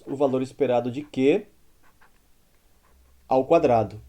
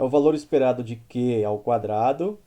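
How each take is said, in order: First: There is a pause before "ao quadrado". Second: It is said straight through without a pause. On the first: The expected value itself is squared. "Reparem na pausa que eu, que eu falei" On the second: Only Q is squared before taking the expected value. "sem pausa"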